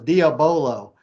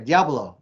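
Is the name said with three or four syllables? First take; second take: four; three. First: The name is said with four syllables. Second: The name is said with three syllables. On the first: This is how people locally say it. "No one goes Diabolo. Like we do here in the South" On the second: This is how the makers say it. "that's how he says it. And that's how they all say it there"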